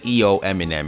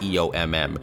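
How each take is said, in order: First: The MM is read as the word Eminem. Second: The MM is read as two separate letters. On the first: "I say E O Eminem" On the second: "and not E O M M"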